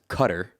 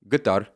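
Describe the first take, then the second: First: The name does not sound like guitar. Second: The name sounds similar to guitar. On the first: The speaker calls it wrong. "One is just plain wrong" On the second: The speaker calls it right. "the version that sounds more similar to guitar"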